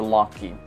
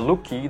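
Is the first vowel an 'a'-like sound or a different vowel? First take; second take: a-like; different vowel. First: The first vowel is an open 'a' sound. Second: The first vowel is not an open 'a' sound. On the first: The speaker calls it right. "tapi dibaca lucky" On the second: The speaker calls it wrong. "Bukan dibaca lucky"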